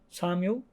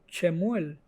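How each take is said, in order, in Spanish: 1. El nombre se pronuncia a la manera inglesa. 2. El nombre se pronuncia a la manera hebrea. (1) "en inglés" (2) "en hebreo"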